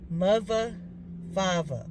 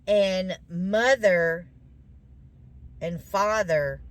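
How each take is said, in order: First: "mother" said as muvva and "father" as fahva, th turned to v; Baltimore mother, father. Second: Said in the usual way. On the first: Retold or imitated. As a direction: imitate the husband saying "mother, father" with v for th. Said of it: "he says it's". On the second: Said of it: "it's not the same way we would be saying it".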